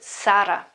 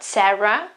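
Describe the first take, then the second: First: The R is a strong rolled R. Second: The R is soft and not rolled. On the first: The speaker calls it right. "but Sara" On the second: The speaker calls it wrong. "not Sarah"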